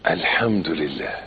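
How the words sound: It is said warmly, with heartfelt feeling. The speaker truly feels grateful. The speaker calls it right.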